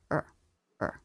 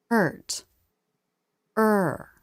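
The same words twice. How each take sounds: First: "Er" said lower, quieter and quick; unstressed er. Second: "Er" rising then falling, full and long; stressed er. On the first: Teacher to learners, showing unstressed "Er". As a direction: toss off "Er" short and low. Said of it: "it's lower in pitch, as well as quieter and quicker". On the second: Teacher to learners, showing stressed "Er". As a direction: give "Er" an up-then-down curve. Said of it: "the er vowel curves up, then down". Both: Shown as a demonstration.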